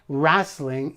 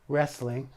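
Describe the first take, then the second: First: The word is said with a Canadian pronunciation. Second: The word is said with a standard pronunciation.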